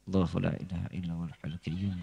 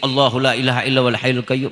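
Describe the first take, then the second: First: It is said quietly, under the breath. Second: It is said louder, with more force.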